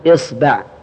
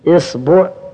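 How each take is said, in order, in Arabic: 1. الباء يتبعها الحركة a. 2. الباء يتبعها الحركة u.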